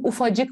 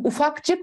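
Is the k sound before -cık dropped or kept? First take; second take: dropped; kept. First: The k sound before -cık is dropped. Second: The k sound before -cık is kept. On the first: The speaker calls it right. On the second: The speaker calls it wrong.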